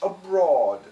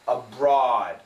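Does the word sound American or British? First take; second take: British; American. First: It is said in a slightly British accent. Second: It is said in an American accent. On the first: "Her pronunciation sounds a little British" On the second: "in America, this is an A W sound"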